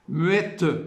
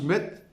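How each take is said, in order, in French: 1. Le e final est bien articulé. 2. Le e final est faiblement articulé. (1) "il faut que le E sorte bien" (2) "si on prononce muette, c'est pas suffisant"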